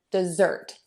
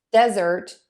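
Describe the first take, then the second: First: "dessert" said de-ZERT, second syllable strong; stress on second syllable. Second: "desert" said DEZ-ert, first syllable strong; stress on first syllable. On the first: Teacher contrasts verb with noun, second syllable of "dessert" stressed. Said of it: "we typically stress syllable two". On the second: Teacher contrasts noun with verb, first syllable of "desert" stressed. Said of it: "we typically stress syllable number one". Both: Shown as a demonstration.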